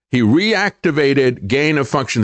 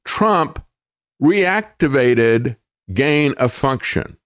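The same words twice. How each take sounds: First: Said in the usual way. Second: Trump set apart by a pause, then reactivated gain of function said slowly; slow, weighty stress on Trump and reactivated; emphasized. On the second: Shown as a demonstration. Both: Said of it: "let me emphasize this".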